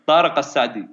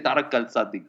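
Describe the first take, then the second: First: "Tariq Al-Sadi" in native Arabic, l melting into the s; "Tariq Al-Sadi" the Arabic way, first vowel long; native Arabic pronunciation. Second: "Tariq Al-Sadi" with the l sounded before the s; "Tariq Al-Sadi" copied back as mispronounced; mimicked mispronunciation. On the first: Shown as a demonstration. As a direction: show them "Tariq Al-Sadi" with authentic Arabic sounds. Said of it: "Say it again?". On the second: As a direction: imitate a foreigner saying "Tariq Al-Sadi". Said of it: "again you said".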